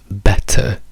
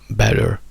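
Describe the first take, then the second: First: The ending is a plain schwa with no R. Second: The ending is a schwa followed by an R. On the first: This is the British way. "diventano semplicemente una schwa" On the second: This is the American way. "better in americano"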